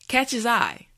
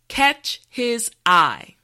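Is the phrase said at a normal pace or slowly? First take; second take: normal pace; slowly. First: The phrase is said at a normal speed. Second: The phrase is said slowly and carefully. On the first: "now let's say it at a normal pace" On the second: "repeat after me"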